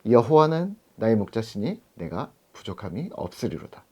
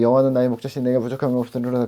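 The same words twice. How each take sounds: First: It is recited slowly with full expression. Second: It is skimmed through quickly without expression.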